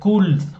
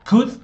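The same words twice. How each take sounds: First: The L sound is pronounced in the word. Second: The L sound is silent in the word. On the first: The speaker calls it wrong. "¿por qué no dice could o cold o lo que sea? No" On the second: The speaker calls it right. "la O no suena y la L tampoco"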